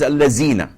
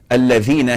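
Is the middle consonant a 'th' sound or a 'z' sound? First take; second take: z sound; th sound. First: The middle consonant is a 'z' sound. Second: The middle consonant is a soft 'th' sound. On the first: This is the colloquial dialect pronunciation. The speaker calls it wrong. "he says Allazina" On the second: This is the proper Quranic pronunciation. The speaker calls it right. "Instead of saying Alladhina"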